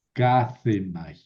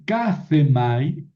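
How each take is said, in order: First: Kazemai said slowly as ka-ze-mai with a falling end; slow model pronunciation. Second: Said in the usual way. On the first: Shown as a demonstration. Teacher modelling a Greek verb for students, slowly. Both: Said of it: "Kazemai es un verbo".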